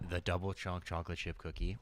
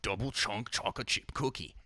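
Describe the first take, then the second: First: It is said in the speaker's own accent. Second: It is said imitating another man's accent.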